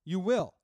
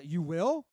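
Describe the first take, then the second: First: "You will." with a flat falling close on "will"; flat statement. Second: "you will?" with a rising, doubtful lift on "will"; questioning rise. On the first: Answering the threat in the retold brawl, "You will." falling. Retelling a dugout confrontation. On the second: Mocking a threat during a baseball brawl retelling, "you will?" rising. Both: Retold or imitated.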